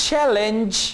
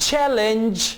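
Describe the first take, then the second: Both takes have the same delivery.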